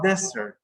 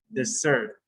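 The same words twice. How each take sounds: First: Desert wrongly front-stressed as DEZ-ert; stress on first syllable. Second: Desert as di-ZERT, stressed at the end; stress on second syllable. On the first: Teacher shows what the verb is not, desert stressed up front. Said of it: "It's not desert". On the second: Teacher corrects to the verb, desert stressed on the second syllable. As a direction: lean on the last syllable of desert. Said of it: "It's not desert, it's". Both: Shown as a demonstration.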